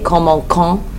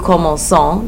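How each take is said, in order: First: The middle consonant is a hard K sound. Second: The middle consonant is a soft S sound. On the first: The speaker calls it wrong. "how a French person would read this if it didn't have the cedilla" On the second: The speaker calls it right. "to make it have a s sound instead of a k sound"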